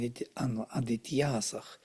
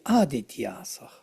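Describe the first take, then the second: First: The stress is on the third syllable. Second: The stress is on the first syllable. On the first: The word is the subject of the sentence. "it is on the proper uh, third syllable" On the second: The word addresses the gods directly. "If it would be vocative, it would be Adityasach on the first"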